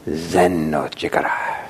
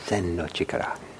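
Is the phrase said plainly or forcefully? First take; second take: forcefully; plainly. First: It is said strongly, with extra force. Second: It is said plainly, without extra force.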